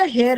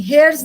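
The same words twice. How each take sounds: First: "हेयर" said as hair, no s at the end; correct form. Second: "हेयर्स" said as hairs, ending in an s sound; wrong plural form. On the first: Teacher gives the correct word to the class, plainly. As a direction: say "हेयर" and stop cleanly on the r. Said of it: "हेयर्स नहीं होता बेटा, हेयर होता है". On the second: Teacher quotes the pupil's mistake back, plainly. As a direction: say "हेयर्स" with the s clearly on the end. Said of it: "नहीं, हेयर्स नहीं होता बेटा". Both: Shown as a demonstration.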